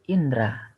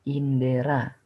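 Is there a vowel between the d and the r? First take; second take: no; yes. First: No vowel is heard between the d and r. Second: A vowel is heard between the d and r. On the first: The speaker calls it right. "Huruf E-nya dihapus menjadi indra" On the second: The speaker calls it wrong. "Kemudian pada kata indera"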